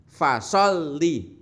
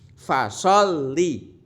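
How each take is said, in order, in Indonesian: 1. Bunyi 'l' ditekan dan langsung dilepaskan. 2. Bunyi 'l' ditekan dan langsung dilepaskan.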